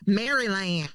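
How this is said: The name is said fully with three syllables. It is said the way outsiders expect. "Let me say it right because y'all be like that ain't how you say it"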